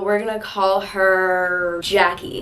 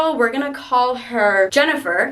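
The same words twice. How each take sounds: First: Slow, stretched-out delivery; drawn-out name reveal. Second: Said in the usual way. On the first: Shown as a demonstration. Naming the girls for the story.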